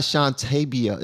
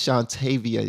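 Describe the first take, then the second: First: "Shantabia" with a b sound; mispronounced name. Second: "Shantavia" with a v sound; corrected name. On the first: Host showing callers the wrong name, "Shantabia" with a b. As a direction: say "Shantabia" with b, not v. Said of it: "it's not Shantabia". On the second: Host correcting a guest's name, "Shantavia" with a v. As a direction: say "Shantavia" with v, not b. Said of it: "it's Shantavia". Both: Shown as a demonstration.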